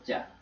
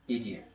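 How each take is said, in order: First: The words blend into a single 'ja' sound. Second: Both words are said fully and separately.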